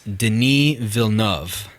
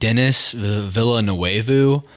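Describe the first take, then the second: First: The name is said in a French way. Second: The name is said in an English-like way. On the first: The speaker calls it right. "That's how you say it" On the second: The speaker calls it wrong. "I've said Dennis Villanueva like this whole time"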